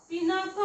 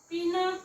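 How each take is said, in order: No difference in how they are said.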